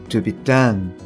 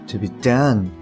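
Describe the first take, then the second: Both takes have the same delivery.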